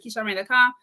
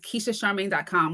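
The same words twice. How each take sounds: First: The phrase is said quickly. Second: The phrase is said slowly.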